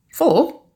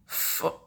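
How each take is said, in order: First: High, loud startled question; incredulous yelp of a question. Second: Barely voiced, hushed question; faint whispered echo. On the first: Acted. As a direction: jump up in pitch in disbelief. Incredulous question about fridge magnets. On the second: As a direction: whisper it under your breath. The number repeated under the breath.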